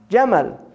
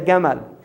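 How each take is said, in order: First: It is said in a standard Arabic accent. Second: It is said in an Egyptian Arabic accent.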